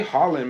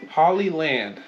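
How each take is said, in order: First: The name is said without a middle 'lee' syllable. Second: The name is said with a middle 'lee' syllable. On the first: The speaker calls it wrong. "Excuse me if I've been saying it wrong" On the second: The speaker calls it right. "I'm pretty sure it's Hollyland"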